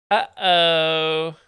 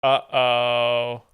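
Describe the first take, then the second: First: Drawn-out "Uh-oh" sung up; teasing uh-oh about a Canadian; louder mock uh-oh. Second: Mock uh-oh. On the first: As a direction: play up the alarm. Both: Real, not acted.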